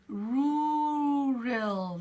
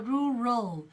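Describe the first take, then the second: First: The first vowel is long. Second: The first vowel is short. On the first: The speaker calls it wrong. "It's not the long sound" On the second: The speaker calls it right. "it's the shorter vowel sound"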